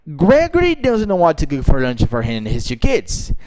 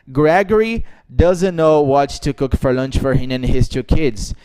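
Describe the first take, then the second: First: The sentence is said with lively, natural intonation. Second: The sentence is said flat and robotic. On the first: The speaker calls it right. "eu falei assim" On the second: The speaker calls it wrong. "eu não disse"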